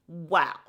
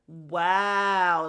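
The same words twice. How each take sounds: First: The word is said short and fast. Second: The word is stretched out slowly.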